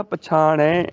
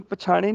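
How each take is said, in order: First: ਪਛਾਣੈ with long open ai; correct ending. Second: ਪਛਾਣੇ quick, with narrow e; wrong ending. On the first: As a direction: stretch the final ai of ਪਛਾਣੈ. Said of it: "ਦੁਲਾਵਾਂ ਲੱਗ ਜਾਣਗੀਆਂ". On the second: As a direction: end ਪਛਾਣੇ on short e. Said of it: "ਨਹੀਂ ਬੋਲਣਾ". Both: Shown as a demonstration.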